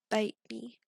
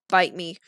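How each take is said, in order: First: The vowel in bite sounds like ee, as beat. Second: The vowel in bite sounds like English eye. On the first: The speaker calls it wrong. "not French. That just sounds like the word beat" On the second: The speaker calls it right. "I said bite. The English bite"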